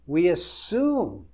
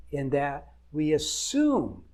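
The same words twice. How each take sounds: First: We assume, slowed and louder, assume hit hard; slow down and punch assume; stress on assume. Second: Said in the usual way. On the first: Real, not acted. Marriage coach hammering his point to wives, stressing assume.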